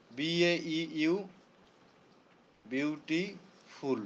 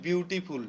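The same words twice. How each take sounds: First: Very slow, softer "beautiful", pausing between its parts; "beautiful" said slowly and quietly in separate syllables; broken into syllables. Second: Said in the usual way. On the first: Shown as a demonstration. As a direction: draw out "beautiful" part by part. Then splits it into syllables.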